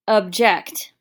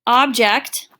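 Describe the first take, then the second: First: "object" as ub-JECT, stress on the second syllable; weak first syllable, weight on JECT in "object"; verb object. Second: "Object" as OB-ject, stress on the first syllable; noun object. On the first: Teacher showing the verb, stress on the second syllable. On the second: Teacher showing the noun, stress on the first syllable. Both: Shown as a demonstration. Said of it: "pronounced a little bit different".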